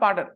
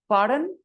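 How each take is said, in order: First: The voice falls at the end. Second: The voice rises at the end. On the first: The speaker calls it wrong. "not pardon" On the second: The speaker calls it right. "your tone goes up"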